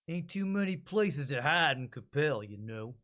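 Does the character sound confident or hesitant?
hesitant. The character sounds hesitant and unsure.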